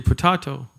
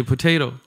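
First: "potato" with a broad ah, po-TAH-to; "potato" pronounced puh-TAH-toh; potato the other way. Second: "potato" with a long ay, po-TAY-to; "potato" pronounced puh-TAY-toh, the usual way. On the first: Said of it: "You would say tomato". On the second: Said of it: "I would say tomato". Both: Shown as a demonstration.

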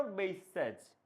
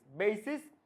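First: বেসেস closing on a voiced জ; voiced ending on বেসেস; final j sound. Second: Said in the usual way. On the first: Shown as a demonstration. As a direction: end বেসেস with a buzzed j, not s. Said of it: "জ লাস্টে". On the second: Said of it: "এটা singular".

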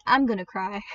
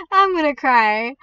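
First: Said in the usual way. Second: Drawn-out, louder mock whine; mock about to cry. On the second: Player fearing someone takes the Godly, mock tearful. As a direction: play up being close to tears, slow and loud.

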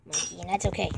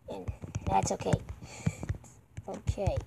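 First: Said in the usual way. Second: Whisper. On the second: Real, not acted. Repeats the line as a whisper.

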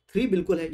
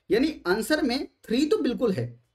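First: three hit firmly at the start; stress on three. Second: Weight falls on तो in "three तो बिल्कुल है"; तो stressed with a falling close. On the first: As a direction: punch three, keep बिल्कुल है light. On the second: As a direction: lean into तो, then let the line fall. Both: Shown as a demonstration.

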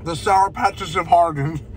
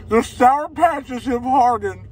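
First: Said in the usual way. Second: Slower, higher, the Sour hit hard; mock dramatic announcement. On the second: Shown as a demonstration. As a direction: proclaim it like grave news, drawn out.

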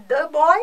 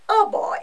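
First: Put-on "the" picked out loudly before boy; stress on THE. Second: Put-on "a" picked out before boy; stress on A. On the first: Teacher showing the English definite article, stress on "the". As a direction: punch the article "the". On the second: Teacher showing the English indefinite article, stress on "a". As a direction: lean on the article "a". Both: Shown as a demonstration.

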